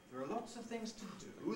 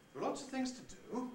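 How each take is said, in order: The two takes are said the same way.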